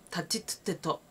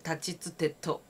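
First: The syllables are said hard and forcefully. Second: The syllables are said softly and gently. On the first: The speaker calls it wrong. "って言わない。" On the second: The speaker calls it right. "他行は優しく言う。"

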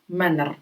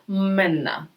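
First: The final r is sounded as a consonant. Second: The final r becomes an a-like vowel. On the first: The speaker calls it wrong. "в кінці ри ви не читаєте як менер" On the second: The speaker calls it right. "оце ри в кінці, воно завжди припідноситься вверх і так переходить в а"

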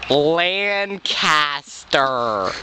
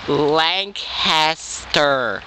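First: The name has a different A sound. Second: The name sounds like Lank-est-er. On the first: The speaker calls it wrong. "Not Lancaster. Different A sound" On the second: The speaker calls it right. "it's Lancaster. Lank-est-er"

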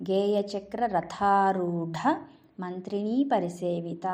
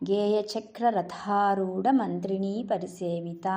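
The two takes are said the same way.

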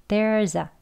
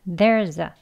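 Both takes have the same delivery.

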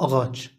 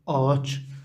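First: A soft g sound is heard in the middle. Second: The middle consonant becomes a lengthened vowel. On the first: This is a regional pronunciation. "في شرط تركية تلفظ أغاتش" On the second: This is the standard pronunciation. "لكن اللفظ الرسمي آتش"

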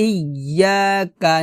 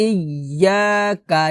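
No difference in how they are said.

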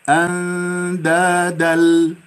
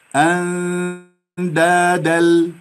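Both takes have the same delivery.

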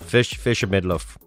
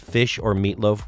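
First: The word is said like midloaf. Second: The word is said as ordinary meatloaf.

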